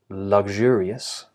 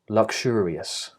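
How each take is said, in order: First: The x consonants are voiced, g and zh. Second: The x consonants are unvoiced, k and sh. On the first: "if I'm picking the red, uh, the red consonants" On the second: "or unvoiced, which would be the blue"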